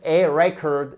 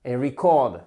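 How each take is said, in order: First: RECORD stressed on the first syllable, REC-ord. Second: "record" stressed on the second syllable, re-CORD; wrong syllable stressed. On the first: Teacher models the noun for learners, stress on first syllable of "record". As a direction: land hard on the start of "record". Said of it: "l'accent tonique se trouve sur la première". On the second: Teacher shows learners the mistake, "record" stressed on its last syllable. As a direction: lean on the end of "record". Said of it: "et pas". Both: Shown as a demonstration.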